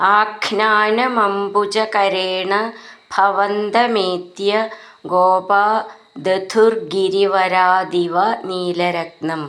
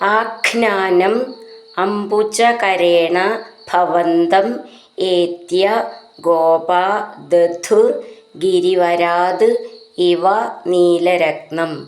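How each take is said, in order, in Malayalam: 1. വാക്കുകൾ ചേർത്ത്, ശബ്ദങ്ങൾ കൂടിച്ചേർത്ത് ചൊല്ലുന്നു. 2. ഓരോ വാക്കും വെവ്വേറെ, ചേർക്കാതെ ചൊല്ലുന്നു.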